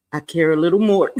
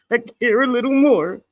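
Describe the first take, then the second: First: Said in the usual way. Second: "I care a little more" said again through a laugh, higher; laughing repeat. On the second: Real, not acted. Streamer joking to chat, laughing repeat. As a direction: laugh the words out with a giggle. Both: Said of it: "repeats it laughing".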